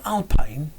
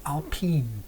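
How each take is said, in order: First: Alpine ending like the word "pine". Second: Alpine ending like "peen". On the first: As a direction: say Alpine with a long "eye" vowel in the second syllable. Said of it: "is it Alpine or Alpine?". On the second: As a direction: say Alpine with a long "ee" in the second syllable. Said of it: "I think you say Alpine". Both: Shown as a demonstration.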